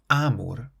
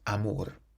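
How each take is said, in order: First: The stress is on the first syllable. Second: The stress is on the last syllable. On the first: The speaker calls it wrong. "So it's not amor" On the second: The speaker calls it right. "So it's on the end"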